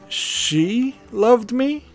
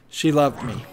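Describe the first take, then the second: First: The word she carries the main stress. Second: No word is stressed more than the others. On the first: "then it becomes a question" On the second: "no emphasis"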